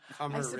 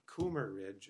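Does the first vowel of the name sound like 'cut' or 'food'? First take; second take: cut; food. First: The first vowel is a short 'uh' sound. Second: The first vowel is a long 'oo' sound. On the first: The speaker calls it right. "pronounce it right. So I'm getting it on the record" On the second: The speaker calls it wrong. "it's not Coomer Ridge, as we keep saying"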